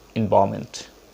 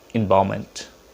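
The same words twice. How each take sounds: The two takes are said the same way.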